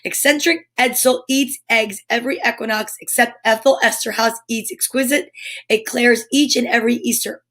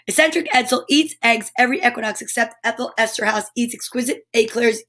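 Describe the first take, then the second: First: It is said at a normal pace. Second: It is said as fast as possible.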